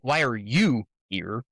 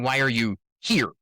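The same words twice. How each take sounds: First: The stress is on "you". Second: The stress is on "here".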